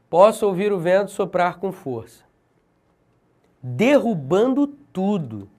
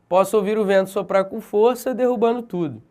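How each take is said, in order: First: A long pause comes before the final phrase. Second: A short pause comes before the final phrase. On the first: The final phrase is given extra emphasis. "essa pausa maior, marcada pelo ponto, ela tem maior força" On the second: The final phrase is not specially emphasized. "se tivesse uma vírgula, seria assim"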